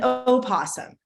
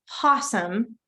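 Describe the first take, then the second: First: The word starts with a vowel before p. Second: The word starts directly with the p sound. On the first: "I've heard it pronounced possum and opossum, both ways" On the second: "I've heard it pronounced possum and opossum, both ways"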